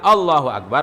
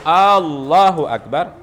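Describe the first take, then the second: First: The first vowel of Allah is short. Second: The first vowel of Allah is drawn long. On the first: It states that God is greatest. The speaker calls it right. "Allah Maha Besar" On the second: It asks whether God is greatest. The speaker calls it wrong. "apakah Allah Maha Besar? ... tidak boleh memanjangkan hamzah pada Allahnya itu"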